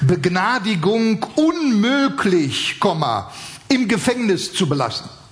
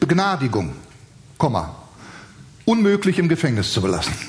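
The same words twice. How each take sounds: First: The pause comes after 'unmöglich'. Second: The pause comes after 'Begnadigung'. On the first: A pardon is impossible and the man stays in prison. "Also die Begnadigung ist unmöglich, dieser Mann ist im Gefängnis zu belassen" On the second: The man is pardoned and cannot be kept in prison. "dann hat er nur das Komma versetzt"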